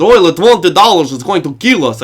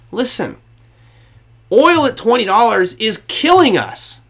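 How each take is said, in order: First: Louder, hammed-up Russian accent; mock Russian official with a thick accent. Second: Put-on slow, higher emphatic quote in own accent; slow high-pitched plea without the accent; acted plea, no accent. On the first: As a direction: put on a Dracula-like Russian accent. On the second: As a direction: voice an exasperated appeal, drawn out and higher. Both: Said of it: "Should I do the Russian accent?".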